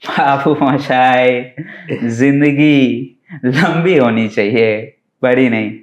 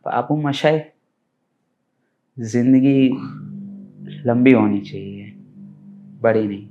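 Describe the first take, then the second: First: The line is delivered in a comic, playful way. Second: The line is delivered in a moved, emotional way. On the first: "એક comedy" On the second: "emotional"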